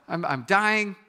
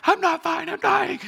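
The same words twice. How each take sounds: First: Said in the usual way. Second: High, loud hammed-up panic squeal; much higher, louder whiny terror; panicked. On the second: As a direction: shriek it like a dying man in a mock panic. Arguing with wife at 4am.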